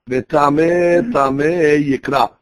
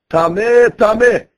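First: Said in the usual way. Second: Higher, louder called-out warning; mild mock scream. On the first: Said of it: "Like it says in the, the Pasuk". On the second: Metzorah warning everybody as he leaves camp, mock scream. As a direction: call it out, a half-hearted scream. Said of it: "he has to scream on top of his lungs".

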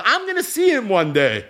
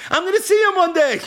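First: Said in the usual way. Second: David promising himself the reunion, pitched up high; rising fervor. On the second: Acted. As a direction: lift it up with hope the second time. David consoling himself, said twice.

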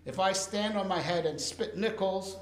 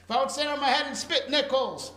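First: Said in the usual way. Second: "spit nickels" said higher and louder, with amusement; playful emphatic repeat. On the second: Shown as a demonstration. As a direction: replay the saying with a grin. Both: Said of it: "I never understood what that expression means".

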